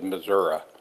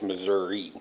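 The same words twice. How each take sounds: First: The word ends with an 'ah' sound. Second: The word ends with an 'ee' sound. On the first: This is how people in the south of the state say it. "they all said Missouri" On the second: This is how people in Saint Louis say it. "to Saint Louis and it's Missouri"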